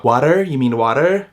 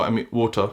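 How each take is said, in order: First: "water" as a questioning "wah-terr"; mocking Canadian pronunciation. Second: Said in the usual way. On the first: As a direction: say "water" Canadian-style, open "ah" vowel, sounded final r. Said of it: "they always take the piss at me when I say water". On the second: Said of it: "when I say water".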